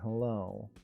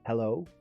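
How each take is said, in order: First: It is said flatly, sounding let down. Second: It is said warmly, sounding glad. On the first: Seeing the other person is unwelcome. "just by the way I say this" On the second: It is nice to see the other person. "which could mean, oh, it's nice to see you"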